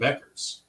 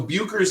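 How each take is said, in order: First: The name is said as 'Beckers'. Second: The name is said as 'Buchers'. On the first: This is how people in the community say it. "I'm hearing Beckers" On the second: This is the pronunciation Google gives. "so Buchers is the correct pronunciation"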